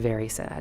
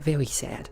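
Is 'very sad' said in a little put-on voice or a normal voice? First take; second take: normal voice; little voice. First: It is said in a plain normal voice. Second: It is said in a small put-on voice. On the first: "I didn't say very sad" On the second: "I had to do that little voice"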